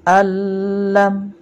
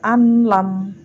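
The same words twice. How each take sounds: First: Al lam with the n melted into a long held l; merged reading. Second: An lam said with a separate n before the l; unmerged n. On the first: Teacher shows pupils the correct idgham, merged l. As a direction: hit al lam loudly, holding the doubled l. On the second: Teacher shows pupils the reading to avoid, n left unmerged. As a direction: sound the n clearly in an lam. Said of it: "Dibacanya tidak an lam". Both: Shown as a demonstration.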